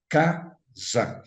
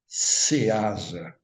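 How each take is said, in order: First: The word starts with a plain 'k' sound. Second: The word starts with the letter name 'cê'. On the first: The speaker calls it right. "a gente fala casa" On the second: The speaker calls it wrong. "a gente não fala ceasa"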